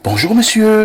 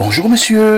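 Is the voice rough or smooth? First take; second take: smooth; smooth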